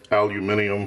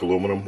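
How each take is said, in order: First: The word is said with five syllables. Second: The word is said with four syllables. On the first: "for those of you that say it that way" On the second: "looks like aluminum"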